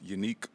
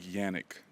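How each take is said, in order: First: The name starts with a 'yoo' sound. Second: The name starts with a 'yan' sound. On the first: The speaker calls it right. "When it's really pronounced Unique" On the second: The speaker calls it wrong. "That's the most common uh, bad pronunciation of my name"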